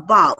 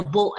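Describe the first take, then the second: First: "bow" with an ow sound; bow as in bending. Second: "bow" with a long o; bow as in arrow. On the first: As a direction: say "bow" to rhyme with cow. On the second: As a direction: say "bow" to rhyme with go. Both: Shown as a demonstration. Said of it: "same spelling but has different meaning".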